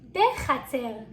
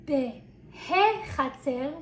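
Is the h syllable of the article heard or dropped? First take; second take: dropped; heard. First: The preposition merges with the noun, without h. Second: The preposition and article are said separately, with h. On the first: The speaker calls it right. "we say" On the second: The speaker calls it wrong. "We don't say"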